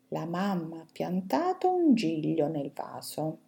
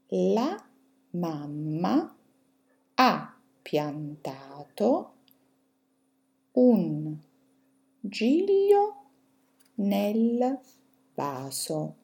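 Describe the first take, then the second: First: The sentence is read at a fast pace. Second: The sentence is read at a slow pace. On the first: "adesso ve le leggo velocemente" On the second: "adesso ve le leggo più lentamente"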